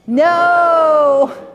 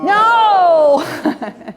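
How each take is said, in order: First: It is said gently and nicely. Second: It is said forcefully, really meaning it.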